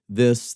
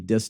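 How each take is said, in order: First: The word begins with a soft th sound. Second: The word begins with a hard d sound. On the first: "rather than saying this" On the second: "they'll say dis"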